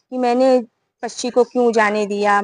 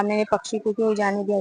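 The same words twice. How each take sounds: First: Said in the usual way. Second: Much softer, faster repeat of क्यों जाने दिया; a hint of a hunter's despairing lament; fading lament. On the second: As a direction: mutter the regret again, trailing away. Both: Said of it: "ऐसे बोल बोल के रहा".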